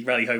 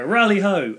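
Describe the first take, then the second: First: Said in the usual way. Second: High, loud hailing shout; raised-voice dwarf hail; dwarves' greeting call. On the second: Acted. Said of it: "the dwarves in there will go".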